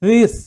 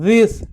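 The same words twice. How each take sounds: First: The th is a soft buzzing fricative. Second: The th is a soft buzzing fricative.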